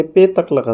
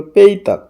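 First: "পেতাক" with a plain e in the first syllable; read as written. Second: "পেইতাক" with an ei glide in the first syllable; correct pronunciation. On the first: Teacher reading the spelling, "পেতাক" with plain pe. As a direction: say "পেতাক" with pe, no glide. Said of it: "এখানে পেতাক লেখা আছে". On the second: Teacher correcting the spelling, "পেইতাক" with pei. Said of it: "উচ্চারণ হবে পেইতাক". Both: Shown as a demonstration.

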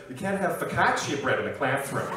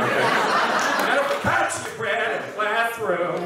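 First: Said in the usual way. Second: Loud, higher, drawn-out outcry; exaggerated proclamation. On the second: Comedian mocking an imagined classroom sign, exaggerated drawn-out shout. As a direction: stretch each word out and belt it.

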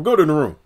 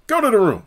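First: Said in the usual way. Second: Much higher commanding "Go to the room"; higher bossy repeat. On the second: Retold or imitated. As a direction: order "Go to the room" again, higher. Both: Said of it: "It's like".

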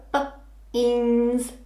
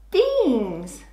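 First: B-ins stretched very slowly sound by sound; slow segmenting for a child; sound talk. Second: Said in the usual way. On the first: Shown as a demonstration. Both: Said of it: "You'll go".

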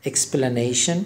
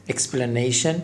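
Both takes have the same delivery.

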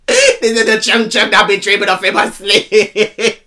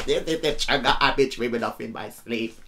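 First: Slow, gleeful declaiming; laughing lyric quote. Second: Said in the usual way. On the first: Retold or imitated. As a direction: belt the line out and break into laughter. Repeats lyric louder, laughing.

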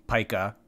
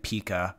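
First: "Pica" said PIE-ka, long i. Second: "Pika" said PEE-ka, long ee. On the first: Host gives the other version, "Pica" as PIE-ka. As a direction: say "Pica" with a first syllable like pie. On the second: Host likens it to another disputed word, "Pika" as PEE-ka. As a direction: say "Pika" with a first syllable like pea. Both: Shown as a demonstration. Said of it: "this is like Pika".

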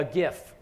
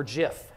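First: "gif" with a hard g, as in gift; hard-g pronunciation. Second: "gif" with a soft g, like jiff; soft-g pronunciation. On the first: Speaker offers the audience one pronunciation choice, hard-g "gif". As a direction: say "gif" starting with a hard g sound. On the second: Speaker offers the audience the other pronunciation, soft-g "gif". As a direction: say "gif" starting with a j sound. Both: Shown as a demonstration. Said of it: "however you choose to pronounce it".

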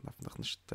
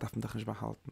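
First: A soft whispered aside to the students. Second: Said in the usual way. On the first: Shown as a demonstration. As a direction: drop to a whisper on "darf man doch nicht". Teacher repeats a point quietly.

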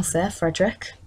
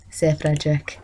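First: Said in the usual way. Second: Whisper. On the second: Real, not acted. Whispered repeat of name.

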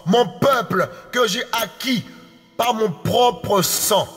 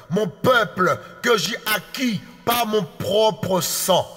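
No difference in how they are said.

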